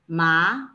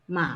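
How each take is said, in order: First: The pitch rises steadily, like a question. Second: The pitch dips low, like a thinking sound. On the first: "the second tone is like asking a question" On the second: "third tone, is similar to the you know um, English thinking sound"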